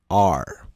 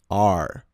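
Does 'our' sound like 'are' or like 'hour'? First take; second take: are; are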